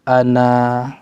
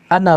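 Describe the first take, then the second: First: The final vowel is held long at a stop. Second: The final vowel is short, joined to the next word. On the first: The reader stops after this word. "Waqfan dalam keadaan berhenti" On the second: The reader continues to the next word. "Waslan dalam keadaan bersambung"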